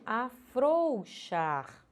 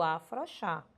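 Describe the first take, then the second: First: "afrouxar" bem lento, com o ditongo OU; pronúncia correta. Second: "afrouxar" dito afroxar, sem o U; pronúncia errada. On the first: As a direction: articule o OU de "afrouxar", sílaba por sílaba. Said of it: "a gramática diz que é o seguinte". ("afrouxar" esticado, a-frou-xar) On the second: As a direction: diga "afrouxar" com O em vez de OU. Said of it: "grafia deve ser da mesma maneira". ("afrouxar" à moda popular, afroxar) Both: Shown as a demonstration.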